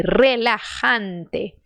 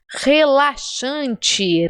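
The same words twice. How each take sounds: First: Relajante said very slowly as "rreh-la-HAN-teh"; slow "relajante" with rolled r and throaty j; Spanish pronunciation. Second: Relaxante said slowly as "heh-la-SHAN-chee"; slow "relaxante" with Brazilian sh and chi; Brazilian Portuguese pronunciation. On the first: Teacher repeats the story's word, in slow Spanish pronunciation. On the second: Teacher translates the story for learners, in Brazilian Portuguese pronunciation. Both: Shown as a demonstration.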